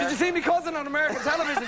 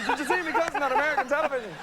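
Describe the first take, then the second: First: High, fast stage Irish voice; hammed-up Irish cousin bragging; an Irish villager boasting, high stage Irish accent. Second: Put-on high, fast stage Irish accent, laughing through it; an Irish villager boasting again, laughing in stage Irish. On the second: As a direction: repeat the Irish brag with a laugh. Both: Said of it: "people with my head wandering around going".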